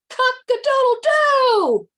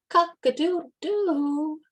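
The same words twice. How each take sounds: First: It is crowed very loudly and confidently. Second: It is crowed louder.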